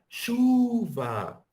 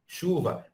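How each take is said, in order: First: "chuva" called high and louder, "chu" held long; called-out stress. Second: "Chuva" with "chu" pitched up; stressed syllable. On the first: Teacher calling up the hill to show stress. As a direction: call out "chuva", stretching the "chu". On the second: Teacher marking the stressed syllable. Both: Shown as a demonstration. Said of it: "as sílabas tônicas, elas dão mais evidência".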